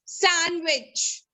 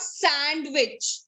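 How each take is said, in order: First: "Sandwich" as san-wich, neat and final; silent D. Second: "sandwich" with a clear D, sand-wich; wrong pronunciation. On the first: Teacher answering her own question, Sandwich with silent D. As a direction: leave out the D in Sandwich. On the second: Teacher warning the class of the mistake, sandwich with voiced D. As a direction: sound the D in sandwich, slowly. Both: Shown as a demonstration. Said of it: "The D is".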